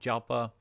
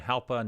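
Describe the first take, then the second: First: The name begins with a hard J sound. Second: The name begins with a breathy H sound. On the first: The speaker calls it wrong. "not Jalpa" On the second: The speaker calls it right. "kind of like an H instead of a J pronunciation"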